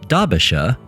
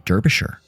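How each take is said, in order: First: The name is said in a British accent. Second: The name is said in an American accent. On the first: "That is my best attempt at a British accent" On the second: "at least I didn't say Derbyshire"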